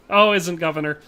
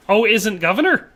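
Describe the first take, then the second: First: Said in the usual way. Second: "governor" rising high at the end; puzzled question. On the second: Real, not acted. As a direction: query it, lifting the pitch on "governor". Repeats puzzling message as question.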